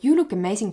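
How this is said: It sounds like a simple, friendly compliment. It is just a passing compliment. "With the first intention, just a comment"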